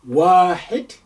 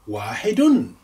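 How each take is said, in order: First: The word ends without the -un ending. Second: The word ends with the -un ending. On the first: "or you can just say wahid" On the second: "you may pronounce the ending that way"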